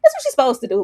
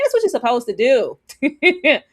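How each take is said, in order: First: Said in the usual way. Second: "That's what you're supposed to do." spelled out slowly, each word weighted; slow emphasis. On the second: Real, not acted. Streamer repeating her point to chat, slow and emphatic. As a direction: lean on every word, slow.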